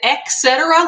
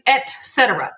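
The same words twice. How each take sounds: First: The first syllable sounds like 'ek'. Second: The first syllable sounds like 'et'. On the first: The speaker calls it wrong. "like with an X" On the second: The speaker calls it right. "it's actually et cetera"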